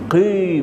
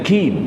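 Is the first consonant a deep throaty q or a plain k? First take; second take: deep q; plain k. First: The first consonant is a deep throaty q. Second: The first consonant is a plain front k. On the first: "huruf qaf" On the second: "kepada huruf kaf"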